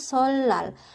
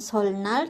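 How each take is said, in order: First: No n sound; the middle is an l sound. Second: An n sound is heard in the middle. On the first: The speaker calls it right. "tapi solal" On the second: The speaker calls it wrong. "bukan solnal"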